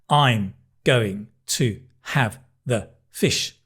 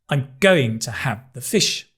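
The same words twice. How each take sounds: First: The words are stressed evenly, without strong beats. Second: Going, have and fish are louder and higher. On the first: The speaker calls it wrong. "we don't say" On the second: The speaker calls it right. "We stress the big words. Going, have, fish"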